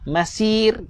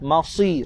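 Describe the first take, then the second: First: The S sound is light and thin. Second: The S sound is heavy and thick. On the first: The speaker calls it wrong. "Sad ini jangan dibaca dengan sin" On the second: The speaker calls it right. "Sad ini tebal"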